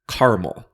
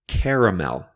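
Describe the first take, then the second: First: The word is said with two syllables. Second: The word is said with three syllables. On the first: "other people say caramel with just two syllables" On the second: "Some people say caramel with three syllables"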